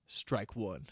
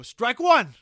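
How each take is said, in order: First: Said in the usual way. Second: Loud, high umpire bellow; umpire's call. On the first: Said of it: "The husband goes". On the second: Acted. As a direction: call it like an ump behind the plate. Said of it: "you hear an ump go".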